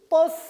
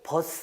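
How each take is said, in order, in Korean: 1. 첫 자음은 된소리예요. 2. 첫 자음은 예사소리예요. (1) "하시면 안 되고" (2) "하셔야 되고"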